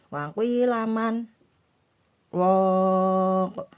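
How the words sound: A brief breathless pause follows 'man'. The speaker calls it right. "megang nafas, tidak bernafas, sekedar satu alif"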